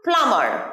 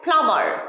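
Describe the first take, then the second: The two takes are said the same way.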